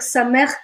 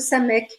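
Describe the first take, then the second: First: The word ends with a throaty guttural sound. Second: The word ends with a plain k sound. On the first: The speaker calls it right. "il vaut mieux dire sa mère" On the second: The speaker calls it wrong. "que sa mec"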